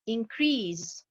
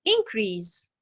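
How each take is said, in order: First: "increase" stressed on -CREASE, as a verb; stress on second syllable. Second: "increase" stressed on IN-, as a noun; stress on first syllable. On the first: Teacher demonstrating the verb, "increase" stressed on the last syllable. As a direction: hold back in-, lean on -crease in "increase". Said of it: "Si je place l'accentuation sur la dernière syllabe". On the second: Teacher demonstrating the noun, "increase" stressed on the first syllable. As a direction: hit in- and let -crease drop in "increase". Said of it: "Si je mets l'accentuation sur la première syllabe".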